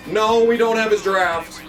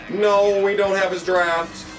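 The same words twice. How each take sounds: The two takes are said the same way.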